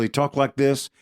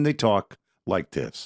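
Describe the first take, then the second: First: Mock preacher's lifted pitch; preacher mimicry, raised. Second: Preacher mimicry, dropping. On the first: Showing co-host how preachers talk, raised mimicking delivery. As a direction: lift the voice like a preacher mid-sermon. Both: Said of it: "talk like this and then they talk like this".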